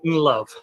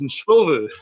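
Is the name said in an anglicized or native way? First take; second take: anglicized; native. First: The name is said in an anglicized form. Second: The name is said closer to its native form. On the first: The speaker calls it wrong. "It certainly wasn't Nlove" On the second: The speaker calls it right. "actually it's Nshovu, or closer to that"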